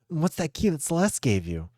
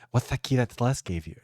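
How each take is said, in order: First: The S sounds are said clearly. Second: The S sounds are said with a lisp.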